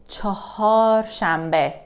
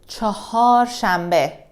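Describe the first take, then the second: No difference in how they are said.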